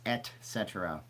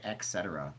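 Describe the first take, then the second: First: "et cetera" said et-SET-era with a clear t; corrected pronunciation. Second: "et cetera" said ek-SET-era; mispronunciation. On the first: Host correcting own slip, clear t pronunciation. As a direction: separate "et" from "cetera", sounding the t. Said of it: "I said et cetera". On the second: Host quoting own slip, mispronounced with a k. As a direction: put a k sound in "et cetera". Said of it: "It's et cetera". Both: Shown as a demonstration.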